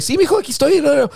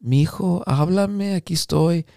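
First: Imitating mom, high and breezy in Spanish; high-pitched, carefree mother on the phone; untroubled mom. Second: Imitating a downcast mother's voicemail; subdued, slightly softened plea in Spanish; depressed mom. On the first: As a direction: answer as if nothing were wrong. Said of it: "it sounded like that". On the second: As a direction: leave a mock-gloomy message for your son. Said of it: "she sounded depressed".

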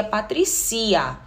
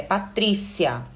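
First: Patricia with the stress on ci, as patri-CI-a. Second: Patrícia with the stress on tri, as pa-TRÍ-cia. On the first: Teacher showing students the wrong stress on her name. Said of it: "senão seria". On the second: Teacher giving students the correct stress of her name. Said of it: "E não é Patricia, é". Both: Shown as a demonstration.

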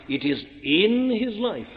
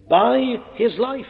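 First: "in" hit firmly, falling to "life"; stress on in. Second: "by" lifted high and slow, rising question; stress on by. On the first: Preacher correcting the congregation, landing hard on "in". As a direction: punch "in" in "it is in his life". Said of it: "at great pains to say". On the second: Preacher quoting the wrong reading, stressing "by". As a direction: lean on "by his life?" slowly, questioning. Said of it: "at great pains to say that it isn't by his life". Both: Shown as a demonstration.

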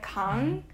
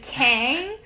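First: Kang with an open AH, like KAHNG; Korean pronunciation. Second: Kang with English A, rhyming with hang; grating mispronunciation. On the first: Shown as a demonstration. Telling people about grating surnames, Korean Kang with AH. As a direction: say Kang with the vowel of father. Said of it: "go out of my way to kind of tell people". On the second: Retold or imitated. Imitating someone who grates on her, anglicized Kang. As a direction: say Kang with a flat A as in cat. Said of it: "when someone is like".

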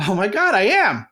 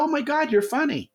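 First: Louder, self-satisfied "I am"; man agreeing he's funny, louder and smug; smug self-realization. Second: High, delighted "Oh my God" from her; woman impressed by his joke, high and delighted. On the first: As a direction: puff up, proud of yourself. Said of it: "And you'll go". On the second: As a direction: imitate a woman charmed and surprised. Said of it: "And she'll go". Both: Retold or imitated.

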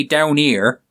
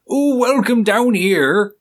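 First: Said in the usual way. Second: High, slow West Country drawl on welcome down here; Somerset accent. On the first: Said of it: "Because they say". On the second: Retold or imitated. Host imitating a Somerset local greeting, high, slow Somerset accent. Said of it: "they come from an area like Somerset and they talk like".

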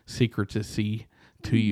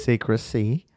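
First: "secrecy" said as "sik-ruh-tuh-see" with an extra syllable; mispronounced secrecy. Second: "Secrecy" said cleanly as "sik-ruh-see", rising like a question; a sceptical echo of "Secrecy" with a rising tune; corrected pronunciation. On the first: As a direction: stretch out "secrecy" into four stumbling syllables. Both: Real, not acted. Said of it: "And it was wrong".

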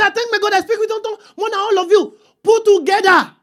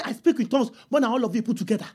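First: Raised, high-pitched declaration; high, sustained preacher's proclamation; proclaimed boast. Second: Quick, low and softer; hurried, understated recital; casual boast. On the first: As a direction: announce it high to a whole congregation. Repeats boast as to whole city. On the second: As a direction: toss the boast off rapidly under the voice. Imagines boasting to the church. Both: Acted.

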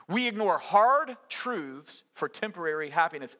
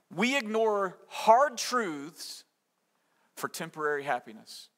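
First: Said in the usual way. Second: Slow, weighted statement; very slow emphasis. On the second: Shown as a demonstration. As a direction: draw out hard truths, slowly and deliberately. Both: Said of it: "To put it another way".

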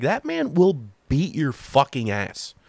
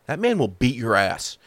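First: Slow, stretched run up to FUCKING; drawn-out emphasis. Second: Said in the usual way. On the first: Real, not acted. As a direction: lean slowly on each word through FUCKING ass. Repeats warning, drawn out for emphasis.

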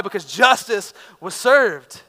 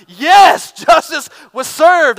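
First: Said in the usual way. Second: Loud, high triumphant yell of victory; cheering shout. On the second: Retold or imitated. Preacher cheering a fighter's knockout punch, triumphant shout.

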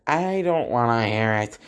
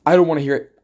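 First: Said in the usual way. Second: Loud "I don't wanna hear it" with "don't" punched; mock dismissive shout. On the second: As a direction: bark "I don't wanna hear it" louder to shut them down. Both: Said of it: "And I'm like".

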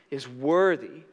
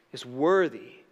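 Both takes have the same delivery.

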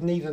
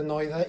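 First: Neither as NEE-ther; ee variant of neither. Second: Neither as NIGH-ther; eye variant of neither. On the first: Co-host joking about confusing pronunciations, neither as NEE-ther. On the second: Co-host joking about confusing pronunciations, neither as NIGH-ther. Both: Shown as a demonstration. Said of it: "Or was it a case of".

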